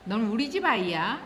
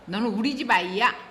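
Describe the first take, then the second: First: It is said in a plain, neutral tone. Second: It is said in a reproachful, accusing tone. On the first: The child belongs to the family. "이거 하고" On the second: The child is acting as if not part of the family. "이렇게 말을 하면 아 네가 우리 집 아이인데 그렇게 행동을 해?"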